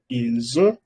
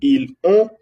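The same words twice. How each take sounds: First: The S is linked to the vowel. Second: The S is not linked to the vowel. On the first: The speaker calls it right. "Se pronuncia ils ont" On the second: The speaker calls it wrong. "No puedo decir ils ont"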